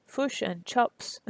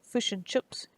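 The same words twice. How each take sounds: First: Kiwi accent, "chops" for chips, said slowly; slow Kiwi accent try. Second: Attempted Kiwi accent. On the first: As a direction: draw out "Fish and chops" with a Kiwi "i". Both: Shown as a demonstration. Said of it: "I'm not good at ac-, at the accent".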